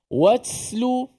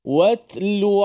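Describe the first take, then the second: First: The t is released with a hiss like s. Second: The t has only a slight breathy release. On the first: The speaker calls it wrong. "Jangan bunyi hamas dia seakan-akan sin. Watslu, itu dah lebih" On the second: The speaker calls it right. "ada hamas sedikit"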